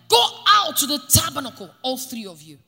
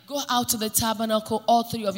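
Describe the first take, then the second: First: It is said forcefully, as an exclamation. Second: It is said calmly, without force.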